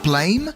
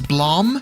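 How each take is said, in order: First: The word rhymes with 'game'. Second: The word rhymes with 'ham'. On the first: The speaker calls it right. "I prefer the name Blame" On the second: The speaker calls it wrong. "Some people refer to it as Blam"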